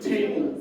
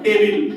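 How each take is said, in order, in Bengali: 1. এটি স্থানীয় ইংরেজি উচ্চারণে বলা হয়েছে। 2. এটি বাংলা-ধাঁচের ইংরেজি উচ্চারণে বলা হয়েছে। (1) "ওরা কিন্তু" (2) "আমরা বলি"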